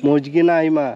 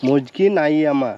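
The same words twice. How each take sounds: First: A quick first go at মজগি নাই মা, repeating what he heard; first try at Santali. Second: মজগি নাই আমা repeated slowly, sounding out each syllable; careful Santali attempt. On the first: Repeating a Santali greeting to the boy, a quick first try. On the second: Trying again to say the boy's Santali greeting, slow and careful. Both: Real, not acted. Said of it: "উচ্চারণ করতে পারছি না".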